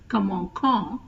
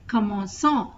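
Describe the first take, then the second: First: The c is pronounced with a k sound. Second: The c is pronounced with an s sound. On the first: The speaker calls it wrong. "instead of" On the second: The speaker calls it right. "So to pronounce as"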